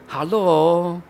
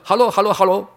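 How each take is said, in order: First: It is said slowly and warmly. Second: It is said fast and hurried.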